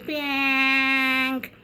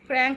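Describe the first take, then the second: First: The word is said without the r sound. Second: The word is said with the r sound. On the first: The speaker calls it wrong. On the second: The speaker calls it right.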